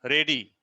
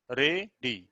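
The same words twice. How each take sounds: First: Said in the usual way. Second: ready split into two beats with a pause; syllable by syllable. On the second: Shown as a demonstration. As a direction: say ready as re, then dee. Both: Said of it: "दो स्वर का उच्चारण हो रहा है".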